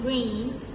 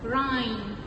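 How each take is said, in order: First: The vowel sounds like 'ay' in day. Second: The vowel sounds like 'eye' in time. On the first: The speaker calls it right. "Instead of saying rain" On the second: The speaker calls it wrong. "she says rhyme"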